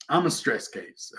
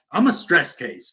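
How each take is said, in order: First: Softer and slow on "I'm a stress case"; slow emphatic repeat. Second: Said in the usual way. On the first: Shown as a demonstration.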